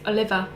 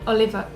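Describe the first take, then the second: First: The name ends with an 'er' sound. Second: The same.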